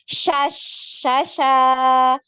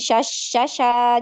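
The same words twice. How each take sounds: First: The sh sound is drawn out before the vowel. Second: The sh sound is cut short. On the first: The speaker calls it right. "Jadi alirkan dulu" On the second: The speaker calls it wrong. "jangan sha sha sha"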